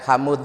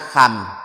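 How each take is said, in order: First: A u vowel comes before the final d. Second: The word ends on m, with no d. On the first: The final d is kept and easy to hear. The speaker calls it right. "harokatnya huruf dal dipindah pada huruf mim" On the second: A letter is lost and the meaning changes. The speaker calls it wrong. "Kalau hanya ham berarti huruf dalnya hilang"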